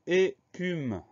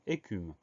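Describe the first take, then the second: First: Écume split slowly as é-cume, pitched high; syllable by syllable. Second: Said in the usual way. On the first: Shown as a demonstration. Teacher dictating a new spelling word, syllable by syllable. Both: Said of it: "Trois syllabes".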